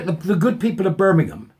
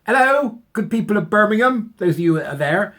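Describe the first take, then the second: First: Said in the usual way. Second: Higher, louder mock hail to a crowd; calling out. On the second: Vlogger calling out to the people of Birmingham, loud and raised. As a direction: hail the whole city like a town crier.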